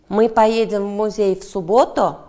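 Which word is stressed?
субботу. The stress falls on the word 'субботу'. The question asks when they will go. "Да, суббота"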